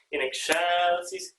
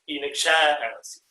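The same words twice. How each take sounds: First: "excelsis" slow and even; usual accent placement. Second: "excelsis" with a stretched middle syllable, falling end; displaced accent. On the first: Conductor repeating the contrast, "excelsis" with undisplaced accent. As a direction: say "excelsis" without leaning late. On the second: Conductor repeating the contrast, "excelsis" leaned on mid-word. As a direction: press on the CEL of "excelsis". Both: Shown as a demonstration. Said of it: "It displaces the accent".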